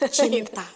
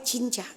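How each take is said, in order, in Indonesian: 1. Suku kata kedua diucapkan 'ta'. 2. Suku kata kedua diucapkan 'ca'. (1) "Cinta gitu" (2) "jangan sampai cinca gitu"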